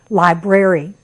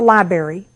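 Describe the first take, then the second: First: The word is said with every sound clear. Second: The word is said sloppily, with sounds dropped. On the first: The speaker calls it right. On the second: The speaker calls it wrong.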